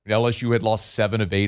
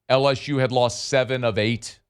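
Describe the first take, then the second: First: It is said at normal speed. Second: It is said slowly and deliberately.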